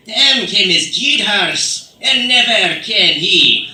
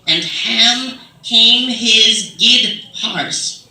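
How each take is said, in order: First: Put-on loud, drawn-out Old English in a British accent; slow, ringing British-accented recital; British-style accent with inflection. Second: Drawn out, loud, labored reading; uninflected reading. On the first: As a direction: declaim it in an exaggerated British accent. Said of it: "you give it a little inflection". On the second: Acted. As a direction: stretch each word out, puzzling through old English. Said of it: "make sense if you say it in your accent".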